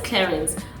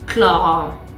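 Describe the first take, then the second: First: The final letters of the name are sounded. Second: The final letters of the name are silent. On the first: The speaker calls it wrong. "We all know it as Clarins" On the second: The speaker calls it right. "the correct French pronunciation is Clara"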